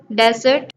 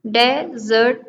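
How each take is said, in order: First: Said in the usual way. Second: "डेजर्ट" as de, pause, zert; split into syllables. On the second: Shown as a demonstration. Teacher counting two syllables in desert, each said apart. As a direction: leave a gap inside "डेजर्ट". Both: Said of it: "two syllable".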